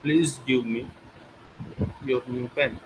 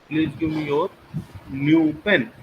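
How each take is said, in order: First: The word give carries the main stress. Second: The word your carries the main stress. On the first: The pen should be given, not taken. "When I put stress on give me" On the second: It must be the listener's pen, nobody else's. "Your, not any others"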